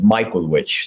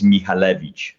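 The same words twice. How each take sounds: First: The name is said with English sounds. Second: The name is said with Polish sounds. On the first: It is the westernized form of the family name. "I ended up westernizing my last name, and I actually pronounce it Michalewicz" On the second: It is the original form of the family name. "The actual Polish pronunciation is Michalewicz"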